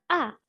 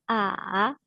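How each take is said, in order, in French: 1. Le ton tombe brusquement depuis haut. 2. Le ton tombe bas, puis remonte.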